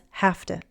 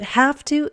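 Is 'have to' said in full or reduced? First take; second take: reduced; full. First: The words blend into one reduced word. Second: Both words are pronounced fully and separately.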